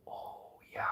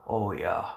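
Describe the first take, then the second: First: An unvoiced echo, to himself; whisper. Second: Said in the usual way. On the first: Real, not acted. A man echoes his own words in a whisper. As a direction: breathe it out as a whisper.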